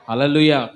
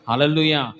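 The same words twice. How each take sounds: The two takes are said the same way.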